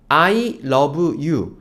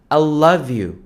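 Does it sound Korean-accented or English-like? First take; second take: Korean-accented; English-like. First: It is said with a Korean-style pronunciation. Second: It is said with a more English-like pronunciation.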